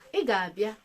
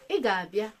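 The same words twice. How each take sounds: First: It is said with a level mid tone. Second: The same.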